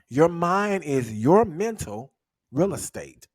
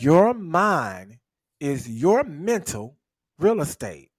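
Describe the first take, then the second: First: The sentence is said at a normal pace. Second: The sentence is said slowly and deliberately.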